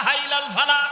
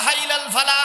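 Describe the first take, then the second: No difference in how they are said.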